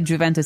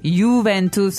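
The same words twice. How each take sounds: First: The first sound is like an English J. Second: The first sound is like a Y. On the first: The speaker sounds like a foreigner. The speaker calls it wrong. "You'll be a very, very obvious foreigner if you say Juventus" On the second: The speaker sounds like a native. The speaker calls it right. "it's Juventus"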